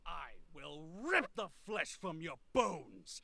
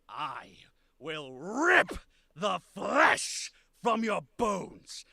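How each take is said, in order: First: It is said fast, in a rage. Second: It is said slowly, stressing key words.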